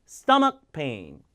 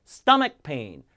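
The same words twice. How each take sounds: No difference in how they are said.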